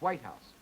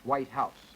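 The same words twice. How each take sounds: First: The stronger stress falls on white. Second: The stronger stress falls on house. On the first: The residence where the president lives.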